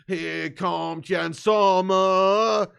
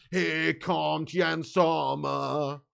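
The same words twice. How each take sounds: First: Very slow, louder sung chant. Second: Chanted, ease into his name slowly; slow gentle chant start. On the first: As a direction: belt his name like a terrace chant. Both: Real, not acted. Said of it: "What is that chant?".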